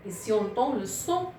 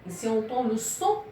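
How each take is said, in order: Both takes have the same delivery.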